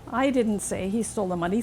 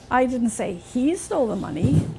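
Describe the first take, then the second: First: The stress falls on the word I. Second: The stress falls on the word he. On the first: Someone else said it. "Somebody else did" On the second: Someone else took it. "Somebody else must have taken it, not him"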